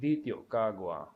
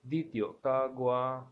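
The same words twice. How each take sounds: First: The last word has a neutral tone. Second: The last word has no neutral tone. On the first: The speaker has finished the thought. "it has reached the end of thought. That is why the neutral tone is being used here" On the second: The speaker still has more to say. "if we don't have a neutral tone in the sentence"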